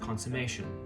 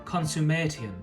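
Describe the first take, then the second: First: The suffix is reduced, as in modern speech. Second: The suffix is pronounced fully, as spelled. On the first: "where we would say" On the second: "suffixes were still pronounced the way they're spelled"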